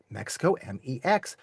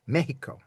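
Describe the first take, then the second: First: "Mexico" with KS, spelling out M E X; "Mexico" the English way. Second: "Mexico" with a breathy H, MEH-hee-ko; "Mexico" said the Spanish way, H for the X. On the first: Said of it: "you don't pronounce it Mexico". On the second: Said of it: "that's with an H sound". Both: Shown as a demonstration.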